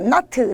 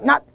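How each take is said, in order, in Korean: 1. 마지막 자음을 모음과 함께 터뜨려 소리 내요. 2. 끊어진, 터뜨리지 않는 받침으로 끝나요. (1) "나트 아니었어요" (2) "디귿이었고요"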